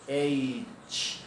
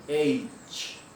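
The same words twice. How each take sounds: Both takes have the same delivery.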